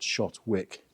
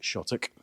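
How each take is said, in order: First: The name is said as spelled, with the 'w'. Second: The name is said as 'Shottock', with no 'w'. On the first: This is how the name is written. "The name is actually spelt Shotwick" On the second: This is how local people say the name. "but we pronounce it Shottock"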